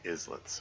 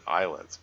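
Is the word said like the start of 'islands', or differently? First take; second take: differently; like islands. First: It does not start like islands. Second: It starts like the word islands. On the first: This is how others in the game say it. "they keep saying islets" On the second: This is the speaker's own instinctive pronunciation. "I instinctively want to pronounce it islets ... islets as in islands"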